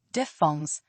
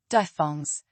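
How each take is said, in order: Both takes have the same delivery.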